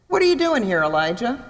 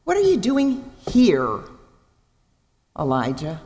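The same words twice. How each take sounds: First: Accusing question with the weight on "are"; stress on are. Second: Caring question, stretched "are"; gentle slow stress on are. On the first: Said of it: "that's often the way it's inflected". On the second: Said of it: "But I wonder if it isn't". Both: Shown as a demonstration.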